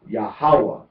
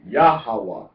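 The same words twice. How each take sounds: First: The stress is on the second syllable. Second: The stress is on the first syllable. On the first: "Pronunciation on the second on the second syllable is Yahweh" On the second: "Accent or emphasis on the first syllable is Yahweh"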